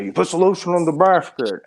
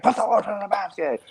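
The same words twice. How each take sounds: First: High, eerie villain line delivery; creepy movie villain voice. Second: Higher, eerie echo of the villain line; friend's villain impression. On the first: Retold or imitated. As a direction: menace it out in a creepy voice. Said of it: "Do the voice". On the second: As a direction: repeat it in a creepy higher voice. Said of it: "And then Dobby's like".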